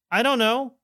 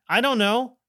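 The two takes are said the same way.

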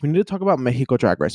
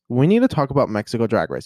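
First: "Mexico" as MEH-hee-koh, in quick English speech; fast, with an h sound in "Mexico"; Spanish pronunciation. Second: Said in the usual way. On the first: Real, not acted. Restarting the topic, "Mexico" in Spanish, MEH-hee-koh. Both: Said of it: "I don't know why I said Mexico".

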